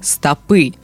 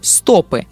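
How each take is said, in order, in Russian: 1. Ударение стоит на последнем слоге. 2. Ударение стоит на первом слоге. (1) "ударный слог последний" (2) "ударение падает на «о»"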